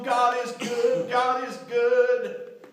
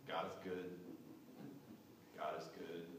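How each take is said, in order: First: It is said with excitement. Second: It is said flatly, with a shrug.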